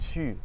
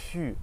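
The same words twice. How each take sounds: The two takes are said the same way.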